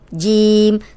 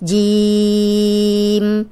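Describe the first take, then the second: First: The vowel is kept short, not drawn out. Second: The vowel is drawn out and held long. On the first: "सिर्फ ऐसे भी पढ़ लेते हैं" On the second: "लंबा करके पढ़ते हैं"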